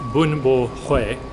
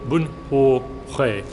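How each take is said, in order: First: It is said with a plain American accent. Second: It is said imitating a Vietnamese pronunciation. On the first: The speaker calls it wrong. "which is the whitest version you can possibly say of pronouncing that" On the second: The speaker calls it right. "He said it more like"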